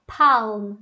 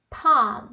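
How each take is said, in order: First: "palm" with an audible L; wrong, L pronounced. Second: "palm" said PAHM, falling; silent L. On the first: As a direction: sound the L in "palm", as PALM. ("palm" errado, com L pronunciado) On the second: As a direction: drop the L from "palm", long AH. ("palm" sem L, PAAM) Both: Shown as a demonstration. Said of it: "o L não é pronunciado".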